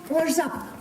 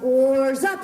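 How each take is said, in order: First: Said in the usual way. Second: Cry out. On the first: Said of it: "That's right, everyone". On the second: Shown as a demonstration. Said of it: "will you cry out".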